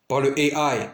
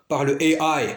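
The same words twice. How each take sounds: The two takes are said the same way.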